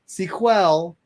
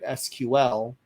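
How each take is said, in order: First: It is said as one word, sequel. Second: It is said as three separate letters. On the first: It names the original language that was trademarked. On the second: It names the renamed commercial language.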